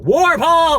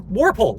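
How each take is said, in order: First: Warpole shouted high and loud in triumph; excited exclamation. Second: Said in the usual way. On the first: Real, not acted. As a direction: blurt it out like a eureka. Name finally recalled, exclaimed.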